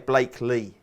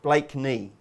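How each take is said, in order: First: The middle consonant is an L sound. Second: The middle consonant is an N sound. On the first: The speaker calls it wrong. "You say Blakely" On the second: The speaker calls it right. "You've got to learn how to say it properly"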